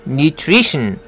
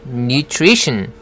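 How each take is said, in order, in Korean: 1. 중간 자음 묶음은 'tr'처럼 들립니다. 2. 중간 자음 묶음은 'tr'처럼 들립니다.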